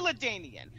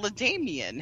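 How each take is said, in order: First: The middle consonant is an N sound. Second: The middle consonant is an M sound. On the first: The speaker calls it right. "It's clearly Ladanian" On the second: The speaker calls it wrong. "his name is not LaDamian"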